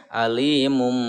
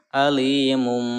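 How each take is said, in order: The two takes are said the same way.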